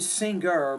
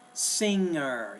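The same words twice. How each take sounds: First: A hard G sound follows the ng. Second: No hard G sound follows the ng. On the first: The speaker calls it wrong. "not really singer" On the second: The speaker calls it right. "There's really no G there"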